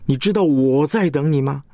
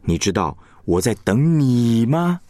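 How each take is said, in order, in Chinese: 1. 重音落在第一个“我”上。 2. 重音落在最后一个“你”上。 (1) "意思是不是别人呢，就是我在等你" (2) "等的不是别人就是你呀"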